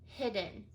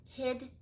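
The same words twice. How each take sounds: First: Said in the usual way. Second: Hidden cut to hid; teacher splitting the word; chunked first syllable. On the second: Shown as a demonstration. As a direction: give only the hid of hidden. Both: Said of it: "cut right down the middle".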